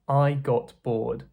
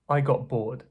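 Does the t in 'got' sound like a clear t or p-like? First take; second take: clear t; p-like. First: The t in got is clearly pronounced. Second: The t in got sounds like p.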